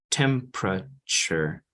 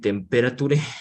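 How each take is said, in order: First: The middle vowel is short and reduced. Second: The middle vowel is full and long. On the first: The speaker calls it right. "So it sounds shorter. Entonces vamos a decir temperature" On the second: The speaker calls it wrong. "no vamos a decir temperature"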